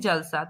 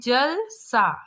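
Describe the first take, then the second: First: It is said straight through without a break. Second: It is said with a short break inside. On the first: It is a single word with its own meaning. "अगर हम direct बोलेंगे जलसा" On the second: It means like water. "थोड़ा-सा रुक के बोलेंगे"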